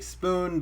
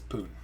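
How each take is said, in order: First: The word starts with an s sound. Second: The word starts without any s sound. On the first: The speaker calls it right. "she tried to say spoon" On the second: The speaker calls it wrong. "it came out as poon. So no S"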